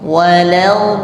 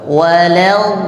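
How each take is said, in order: The two takes are said the same way.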